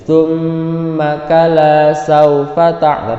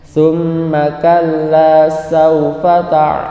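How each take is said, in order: First: The double l in kalla is flat and short. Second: The double l in kalla is pressed and held. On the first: The speaker calls it wrong. "jangan datar baca seperti ini" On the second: The speaker calls it right. "tapi ditekan kalla"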